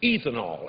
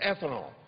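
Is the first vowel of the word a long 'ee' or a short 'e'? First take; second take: long ee; short e. First: The first vowel is a long 'ee' sound. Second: The first vowel is a short 'e' sound. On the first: The speaker calls it wrong. "a lot of people pronounce it ethanol, and that's E E E T H A N O L" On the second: The speaker calls it right. "It's ethanol"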